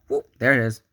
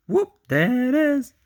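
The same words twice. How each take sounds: First: Said in the usual way. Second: Very high, loud whoop; high-pitched, playful cheer; playful catchphrase. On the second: Acted. Repeats catchphrase as playful exclamation.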